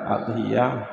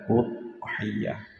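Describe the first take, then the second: First: The word begins with an a vowel. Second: The word begins with a u vowel. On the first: The speaker calls it wrong. "tidak dibaca adhiyah" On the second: The speaker calls it right. "dibaca udhiyah"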